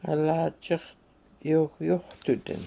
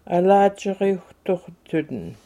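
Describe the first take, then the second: First: Alachiriuhtuhdin slowly, ending shortened to tuhdin; northern form alachiriuhtuhdin, said slow and careful; northern pronunciation. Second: Alachiriuhtuhtudin with the southern tuhtu ending; southern form Alachiriuhtuhtudin, fully voiced; southern pronunciation. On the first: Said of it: "and the northern is". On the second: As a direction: say it the southern way, Alachiriuhtuhtudin with both tuh syllables. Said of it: "That's southern". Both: Shown as a demonstration.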